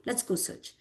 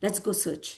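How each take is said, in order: First: Whispered almost without voice. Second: Said in the usual way. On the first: Retold or imitated. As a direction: breathe it, soft and resolved. Rama's resolve, said twice.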